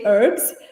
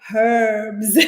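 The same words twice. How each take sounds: First: The word starts without an h sound. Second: The word starts with an audible h sound. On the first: "I make it silent, and I usually say herbs" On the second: "That is the only way to say it"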